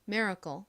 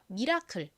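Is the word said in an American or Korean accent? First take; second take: American; Korean. First: It is said with an American pronunciation. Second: It is said with a Korean-style pronunciation. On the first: "미국식 발음으로는 씨엘이를 좀 세게 발음하여" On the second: "한국식 발음 해볼게요"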